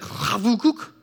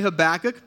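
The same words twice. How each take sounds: First: The name is said in a Hebrew-like way. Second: The name is said in a plain English way. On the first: "the proper pronunciation, I asked Matt, our resident Hebrew scholar, is actually like Habakkuk" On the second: "That's the most natural way for me to say it"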